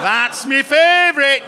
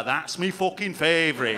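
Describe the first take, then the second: First: Louder, slower northern English accent on "That's me favorite"; louder local British accent. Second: Light northern English accent on "That's me fucking favorite"; "me" said as a northern English "mi", a lightly put-on local accent; local British accent. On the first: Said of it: "I can't fucking sustain it". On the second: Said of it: "I like that one there". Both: Shown as a demonstration.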